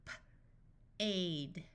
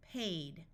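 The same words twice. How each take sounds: First: Puffed P, pause, then "aid"; sounded out. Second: Said in the usual way. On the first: Shown as a demonstration. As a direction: break "P-, aid" into separate sounds. Phonics teacher sounds out, then blends.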